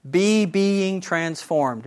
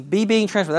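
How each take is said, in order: First: Be being transformed said slowly, each word leaned on; drawn out. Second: Said in the usual way. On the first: Shown as a demonstration. Teacher slowly spells out the verb's present tense for the class. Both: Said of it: "if we have bad English".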